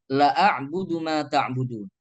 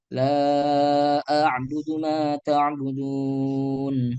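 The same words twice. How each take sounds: First: The vowel in 'la' is cut short. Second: The vowel in 'la' is held long. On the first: Indeed I worship what you worship. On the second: I do not worship what you worship.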